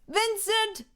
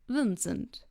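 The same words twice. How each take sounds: First: The name is said in a high voice. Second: The name is said in a low voice. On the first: "why does your voice go one octave higher when greeting someone" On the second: "Can you do the same greeting one octave lower?"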